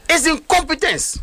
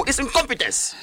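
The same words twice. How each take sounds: First: "incompetence" drawn out slowly, pitched higher, each syllable hit; slow down and hammer "incompetence"; emphatic repeat. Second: Said in the usual way. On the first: Real, not acted. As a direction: drive the word "incompetence" home, slow and high.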